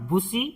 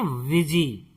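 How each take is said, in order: First: It is said with an 'oo' vowel and 's'. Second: It is said with an 'i' vowel and 'z'. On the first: The speaker calls it wrong. "बुसी नहीं" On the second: The speaker calls it right. "इसे हम पढ़ते हैं विजी"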